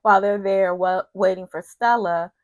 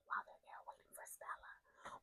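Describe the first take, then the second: First: Said in the usual way. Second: Very soft, voiceless whisper. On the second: Real, not acted. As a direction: whisper it, barely audible. Repeats the phrase in a whisper.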